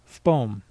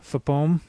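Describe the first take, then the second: First: The consonants run together in a single syllable. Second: An extra vowel splits the word into two syllables. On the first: The speaker calls it right. "It's just one syllable. It is pronounced FPOM" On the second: The speaker calls it wrong. "that is making an extra syllable out of it"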